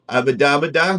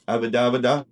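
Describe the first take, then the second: First: It is said in a firm, insistent way. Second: It is said in a casual, plain way.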